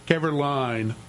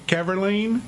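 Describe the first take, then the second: First: "Keverline" ending like the word "line"; "Keverline" with a long i in the last syllable; corrected pronunciation. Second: "Keverline" ending like "lean", rising; tentative "Keverline" rhyming with "mean"; unsure pronunciation. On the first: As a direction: say "Keverline" to rhyme with "fine". Second reading of the surname. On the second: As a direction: end "Keverline" in "-leen", as a question. Trying two readings of a surname. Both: Real, not acted.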